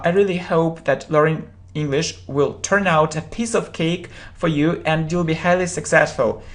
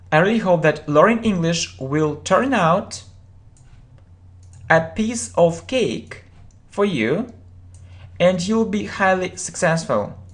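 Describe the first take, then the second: First: It is read at normal speed. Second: It is read more slowly.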